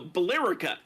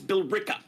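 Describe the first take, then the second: First: The name is read just as it is spelled. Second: The name has the local pronunciation. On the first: The speaker calls it wrong. "a normal person looking that would think it was" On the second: The speaker calls it right. "No, it's"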